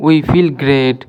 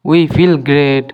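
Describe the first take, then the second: No difference in how they are said.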